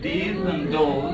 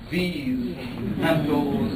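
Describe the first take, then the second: First: The words begin with a hard d sound. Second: The words begin with a soft th sound. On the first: This is the form shaped by African languages. "it gets rendered as these and those" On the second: This is the form taught in grammar school. "you have to enunciate that with these and those"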